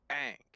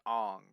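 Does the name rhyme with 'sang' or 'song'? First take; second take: sang; song. First: The vowel is a front 'a' sound. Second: The vowel is an open 'o' sound. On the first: The speaker calls it right. "the proper pronunciation is saying both A's" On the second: The speaker calls it wrong. "when you pronounce it Ong, you're assuming that the first A is silent"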